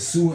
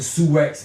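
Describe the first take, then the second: First: The word ends in a vowel, no 'ks'. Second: The word ends with a 'ks' sound. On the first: The speaker calls it right. "It's called the Sioux Indians. That's how you really say that" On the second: The speaker calls it wrong. "It's not called the Sioux X Indians"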